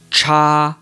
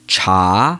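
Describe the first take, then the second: First: The pitch stays high and level. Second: The pitch rises from middle to high.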